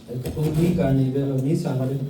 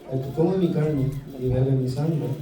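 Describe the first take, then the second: The two takes are said the same way.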